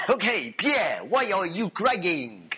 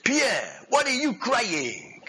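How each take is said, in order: First: Hammed-up French accent, higher pitched; second go at a comic French accent, slowing down; retried French accent. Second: Put-on French accent slipping into African-sounding; high, drawn-out, badly faked French accent; botched French accent. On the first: General asking his gunner about tears, exaggerated French accent. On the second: General asking his gunner about tears, botched French accent sounding African. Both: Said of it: "Sounds like African, didn't it?".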